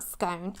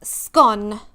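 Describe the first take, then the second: First: Scone said as skoan, rhyme with stone; scone with a long drawn o. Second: Scone said as skon, short o. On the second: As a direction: rhyme Scone with gone. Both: Shown as a demonstration. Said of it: "not scone".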